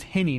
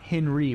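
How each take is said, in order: First: "Henny" in two syllables, ending in plain -nee. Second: "Henry" with an R after the N. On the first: Correcting the comedian's name for listeners, "Henny" said without an R. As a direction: say "Henny" with no R, just HEN-ee. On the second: Showing listeners the mistaken name, "Henry" said with its R. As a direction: say "Henry" with the R, HEN-ree. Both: Shown as a demonstration. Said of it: "not Henry, but Henny Youngman".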